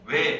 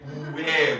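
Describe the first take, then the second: First: It is said quickly as one sound. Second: It is said slowly, split into two sounds.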